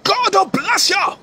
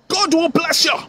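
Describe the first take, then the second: First: It is said in a raised voice. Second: It is said in a normal voice.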